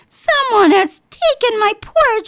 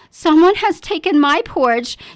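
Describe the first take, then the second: First: The voice is small and high. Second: The voice is medium in pitch and size. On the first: "cried in his wee little voice" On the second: "she said in her medium-sized voice"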